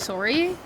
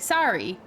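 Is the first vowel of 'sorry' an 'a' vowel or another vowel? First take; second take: another vowel; 'a' vowel. First: The first vowel is not an 'a' sound. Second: The first vowel is an 'a' sound. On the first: This is the speaker's own way of saying it. "I say sorry" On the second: This is how someone else says it. "she says it with an A"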